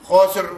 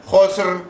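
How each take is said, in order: No difference in how they are said.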